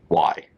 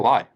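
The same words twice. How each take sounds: First: It sounds condescending and dismissive. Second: It sounds open, playful and curious. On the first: The question talks down to the other person. The speaker calls it wrong. "not in a condescending like why" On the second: The question invites exploring something together. The speaker calls it right. "let's explore this. This sounds fun"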